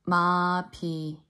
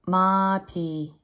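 No difference in how they are said.

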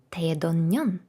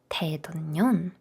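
The two takes are said the same way.

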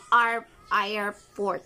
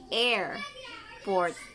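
First: The first vowel is a short A sound. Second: The first vowel is a long A sound. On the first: The speaker calls it wrong. "hindi airport" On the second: The speaker calls it right. "or you read it like airport"

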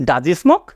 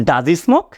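The two takes are said the same way.

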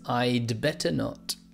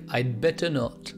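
First: Said carefully, with the d sound clearly heard. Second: Said fast, with the d sound not heard. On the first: "But in fact, it is" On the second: "When I say it fast, you can't really hear the D"

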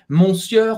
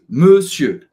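First: The final R sound is pronounced. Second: The final R sound is silent. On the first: The speaker calls it wrong. "não é monsieur" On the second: The speaker calls it right. "você não vai pronunciar o R no final"

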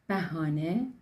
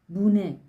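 First: Three syllables with open a vowels: bahane. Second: Shortened to two syllables: bune. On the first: "Bu kelimenin telaffuzu farklı yörelerde değişiyor" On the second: "ve hatta bune şeklinde de telaffuz ediliyor"

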